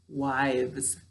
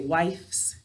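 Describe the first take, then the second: First: The word ends with a v sound. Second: The word ends with an f sound. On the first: The speaker calls it right. "it's wives" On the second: The speaker calls it wrong. "we don't say wifes"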